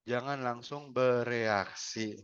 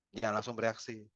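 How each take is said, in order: First: "jangan langsung bereaksi" drawn out slowly, each word weighted; slow emphatic warning. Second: "Jangan langsung bereaksi" repeated softer, settling. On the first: Trainer warning webinar audience, slow and weighted. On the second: Trainer repeating advice to audience, softly. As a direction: echo the warning softly. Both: Shown as a demonstration.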